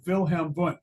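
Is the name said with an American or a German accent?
German. The name is said with a German accent. The speaker calls it right. "say it correctly with a German accent"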